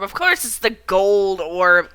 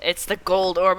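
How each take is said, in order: First: Course drawn out, slow and louder; stress on course. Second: Said in the usual way. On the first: Real, not acted. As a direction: lean hard on course, exasperated. Exasperated at own mistake.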